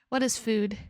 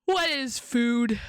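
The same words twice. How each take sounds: First: Said in the usual way. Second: Slow dramatic question. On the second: Pretend.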